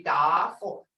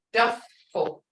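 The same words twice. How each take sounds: First: "duffel" mispronounced as daah-fel; long "ah" sound. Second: "duffel" with a short uh before the f; short "uh" sound. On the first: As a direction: stretch the first vowel of "duffel" to ah. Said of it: "a long sound in there". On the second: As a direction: say "duffel" with its vowel kept short. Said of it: "hear that double sound". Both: Shown as a demonstration.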